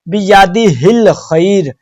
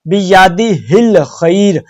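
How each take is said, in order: The two takes are said the same way.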